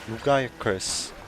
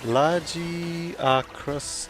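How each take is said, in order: First: The name starts with a hard 'loo-guy' sound. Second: The name starts with a soft 'lah-jee' sound. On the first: This is the speaker's habitual way of saying the name. "I'm used to saying Lugai Akras" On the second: This is how the game itself says the name. "is the initial pronunciation in game"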